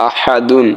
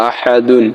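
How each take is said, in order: No difference in how they are said.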